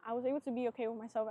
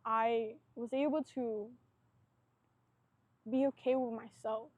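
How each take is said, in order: First: Fast, light restatement; fast casual repeat to the camera; quick repeat. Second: Slow, weighty first telling; slow, heartfelt realisation to the camera; slow, emphatic. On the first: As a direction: rattle "I was able to be okay with myself" off quickly. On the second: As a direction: let "I was able to be okay with myself" land slowly and firmly. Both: Real, not acted.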